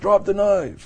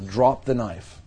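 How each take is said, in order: First: The command is spoken in a raised, louder voice. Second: The command is spoken at a normal, calm volume. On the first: The demand is being escalated. "And then you raise your voice" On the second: A simple request is being made. "you could just tell the person"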